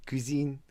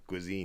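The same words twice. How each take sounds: First: Said in the usual way. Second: "cuisine" slurred to "koo-zeen", lower and softer; mispronounced French. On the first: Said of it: "I can say cuisine". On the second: Shown as a demonstration. Husband practising until it becomes a female cousin, mispronounced "cuisine". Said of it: "turned it into a female cousin".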